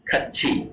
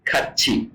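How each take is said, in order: No difference in how they are said.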